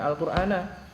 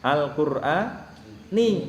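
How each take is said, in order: First: The word ends with an 'a' vowel. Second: The word ends with an 'i' vowel. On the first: The speaker calls it wrong. "gak bisa dibaca" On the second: The speaker calls it right. "Akan dibaca dengan"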